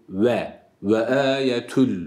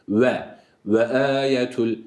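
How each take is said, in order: Both takes have the same delivery.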